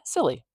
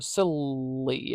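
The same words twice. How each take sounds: First: The L sound is said once and short. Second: The L sound is doubled and held long. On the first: The speaker calls it right. "It's kind of just there once" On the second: The speaker calls it wrong. "we don't say silly or silly and like really make it super long"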